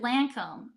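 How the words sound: The first vowel is a flat American hard A. The speaker calls it wrong. "I said Lancome"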